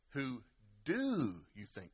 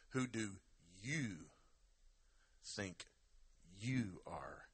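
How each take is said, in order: First: "do" drawn out and punched after a pause; stress on DO. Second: "you" set apart with pauses either side; pause, then lean slowly on "you"; stress on YOU. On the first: Preacher shows it's an active thing, stress on DO. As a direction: hold and lean hard on "do". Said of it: "Or you could say". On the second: Preacher shifts the emphasis, stress on YOU. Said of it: "put a different emphasis on a different word". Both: Shown as a demonstration.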